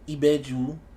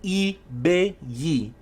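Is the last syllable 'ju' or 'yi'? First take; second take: ju; yi. First: The word ends with a 'ju' syllable. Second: The word ends with a 'yi' syllable. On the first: The speaker calls it wrong. "was talking about Iboju, Ibaji, Ibeju" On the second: The speaker calls it right. "It's Ibeyi"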